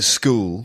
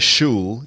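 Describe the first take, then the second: First: The word begins with an sk sound. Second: The word does not begin with sk. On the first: The speaker calls it right. "pronounced sk" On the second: The speaker calls it wrong. "you don't say"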